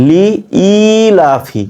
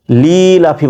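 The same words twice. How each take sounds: First: লি ই লাফি with short লি and separate long ই; correct separate i. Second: লি লাফি with লি stretched straight into লাফি; common wrong reading. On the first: Shown as a demonstration. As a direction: cut লি, restart on a held ই, then লাফি. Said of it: "ই হবে, ঠিক আছে". (লি ছোট, ই টেনে, লাফি) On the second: Retold or imitated. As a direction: drag লি long and omit the separate ই. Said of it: "লি লাফি বলে দেয়". (লি লাফি, লি ভুল করে টানা)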